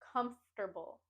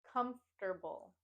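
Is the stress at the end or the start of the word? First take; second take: start; start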